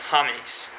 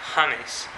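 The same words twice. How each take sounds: First: It is said with a Spanish pronunciation. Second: It is said with a Spanish pronunciation.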